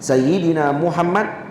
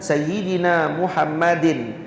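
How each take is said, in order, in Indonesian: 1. Nama itu berakhir dengan bunyi d saja. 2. Nama itu berakhir dengan suku kata -in tambahan. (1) "dia sukun tadi ni untuk darurah syairiyah" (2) "Kalau dibaca Sayyidina Muhammadin, hambanya dari baik dia akan jadi maksur"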